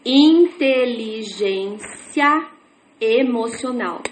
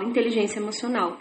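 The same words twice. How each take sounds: First: Drawn out word by word, slowly; stretched syllable-by-syllable reading; slow beginner reading. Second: Quick, soft, smooth; rattled off at a glance; fast fluent reading. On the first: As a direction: sound out each word like a new reader. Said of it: "eu começo a ler assim". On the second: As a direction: glide through it like a practiced reader. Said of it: "E eu leio e falo". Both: Shown as a demonstration.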